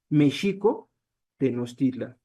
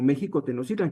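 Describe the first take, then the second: First: The name uses the original Nahuatl pronunciation. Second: The name uses the modern Spanish pronunciation. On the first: The speaker calls it right. "Ese sería como lo pronunciaban ellos" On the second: The speaker calls it wrong. "está mal pronunciado"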